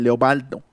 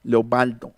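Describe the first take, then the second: Both takes have the same delivery.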